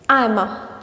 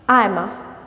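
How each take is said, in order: The two takes are said the same way.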